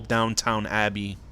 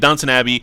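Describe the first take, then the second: First: The first word is said like 'downtown'. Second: The first word is said like 'Downton'. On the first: The speaker calls it wrong. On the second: The speaker calls it right.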